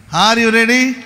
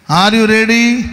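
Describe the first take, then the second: No difference in how they are said.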